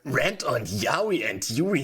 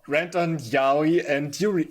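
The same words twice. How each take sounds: First: It is read in an exaggerated put-on voice. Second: It is read in a normal speaking voice.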